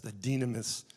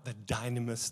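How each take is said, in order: First: "dynamis" opening like "dee"; Greek-style pronunciation. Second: "dynamis" opening like "dine"; anglicized pronunciation. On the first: Preacher restating the word for power, Greek-style pronunciation. Repeats word with other vowel. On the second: Preacher giving the Greek word for power, anglicized pronunciation. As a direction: say "dynamis" with a long-i DY. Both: Shown as a demonstration.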